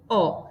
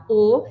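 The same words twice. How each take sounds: First: "O" said as open ó; teacher's demo of open "O". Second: "O" said as closed ô; teacher's demo of closed "O". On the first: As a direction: isolate the vowel "O" with an open sound. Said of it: "eu tenho um som aberto". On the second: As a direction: isolate the vowel "O", loud and closed. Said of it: "eu tenho um som fechado". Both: Shown as a demonstration.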